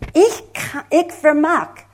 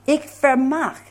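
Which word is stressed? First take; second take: ich; vermag. First: The stress is on the word ich. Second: The stress is on the word vermag. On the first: It is the speaker personally who is meant. "aber ich bin gemeint. Ich vermag" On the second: There is real ability to do it. "dann vermag. Ich vermag"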